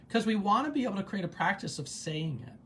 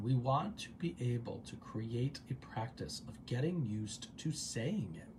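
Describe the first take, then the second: First: Said in the usual way. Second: Softer, measured, drawn out at the end; careful, lower-key repeat; deliberate restatement. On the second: Shown as a demonstration. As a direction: say it slowly and quietly to let it land. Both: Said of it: "I'm gonna say that again".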